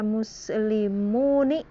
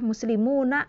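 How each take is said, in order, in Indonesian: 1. Nun terakhir memakai vokal i. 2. Nun terakhir memakai vokal a.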